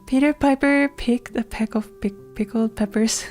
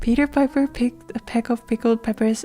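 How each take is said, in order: First: It is said slowly, with a stumble. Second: It is said fast.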